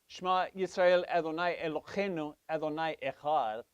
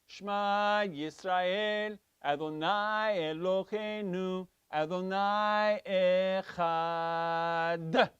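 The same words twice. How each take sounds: First: The last word ends with an r sound. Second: The last word ends with a stressed d sound. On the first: The Lord is another. The speaker calls it wrong. "if I say the resh" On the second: The Lord is one. The speaker calls it right. "you are supposed to emphasize the Dalit"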